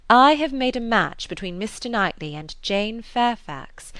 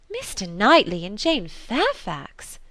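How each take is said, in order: First: Said in the usual way. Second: Slow, astonished exclamation of the two names; stunned, drawing out each name; exclaiming. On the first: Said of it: "said Missus Weston". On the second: A narrator's reading. Emma exclaims at Missus Weston's match idea, slow and astonished. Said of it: "exclaimed Emma".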